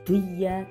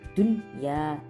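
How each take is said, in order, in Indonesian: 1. Bunyi n hilang sebelum y. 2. Bunyi n terdengar jelas sebelum y. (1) "bukan duya" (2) "nunnya ini dibaca jelas"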